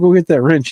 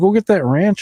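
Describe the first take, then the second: First: The last word has a plain short e vowel. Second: The last word has an a vowel, like ranch.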